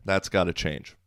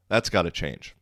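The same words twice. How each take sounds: The two takes are said the same way.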